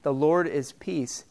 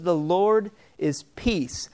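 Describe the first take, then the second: First: Slow, reverent. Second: "The Lord is Peace" drawn out slowly, each word weighted; slow and deliberate. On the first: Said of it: "recorded in the Bible". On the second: Preacher stressing the name for the congregation, slow and deliberate. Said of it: "but he chose". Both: Shown as a demonstration.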